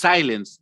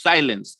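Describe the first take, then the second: No difference in how they are said.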